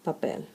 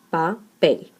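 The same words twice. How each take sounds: First: Said in the usual way. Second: "papel" split as pa, PEL, last syllable stronger; stress on last syllable. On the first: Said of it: "the word". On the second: Shown as a demonstration. Teacher showing the stronger syllable of papel, stress on PEL. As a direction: separate "papel" and lean on PEL. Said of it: "the stronger syllable would be the last one".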